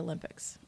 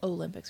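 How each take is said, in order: First: The first vowel is a short ah sound. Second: The first vowel is a long oh sound. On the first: "We say it with an A. it as a soft O, like a short O, not a long O" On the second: "We don't say Olympics"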